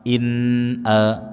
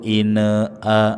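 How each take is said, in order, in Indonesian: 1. Huruf n dilafalkan dengan jelas dan stabil. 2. Huruf n memantul ke vokal berikutnya. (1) "huruf nun dibaca dengan jelas bunyinya" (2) "dengan mantul"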